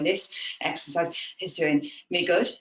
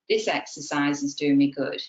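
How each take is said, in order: First: It is very breathless with many breaks. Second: It is said smoothly without any break.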